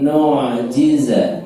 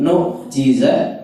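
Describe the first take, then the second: First: The sound flows through the 'ain into jiza. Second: The sound stops at the 'ain before jiza. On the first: The speaker calls it right. "harus mengalir" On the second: The speaker calls it wrong. "ainnya tidak boleh berhenti"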